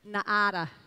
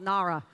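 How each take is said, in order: First: The name is said with a Brazilian pronunciation. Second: The name is said with an American pronunciation. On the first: The speaker calls it right. "that is how you say it, because um, in Brazil they like drilled me until I said it correctly" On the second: The speaker calls it wrong. "Don't listen to any American that says it's called Nara"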